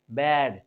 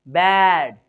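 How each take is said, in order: First: "बेड" low, with a relaxed ए; low-key "बेड", vowel kept as ए; unaccented ए vowel. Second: "बैड" loud, with a wide, drawn-out ऐ; accented ऐ vowel. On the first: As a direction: say "बेड" without opening or stressing the vowel. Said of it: "accent नहीं था". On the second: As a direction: open the mouth wide on "बैड". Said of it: "मेरे मुंह को देखिएगा". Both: Shown as a demonstration.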